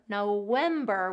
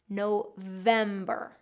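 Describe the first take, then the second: First: The middle consonant is a W sound. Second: The middle consonant is a V sound. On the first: The speaker calls it wrong. "it's not November, November with a W" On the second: The speaker calls it right. "November with that V sound"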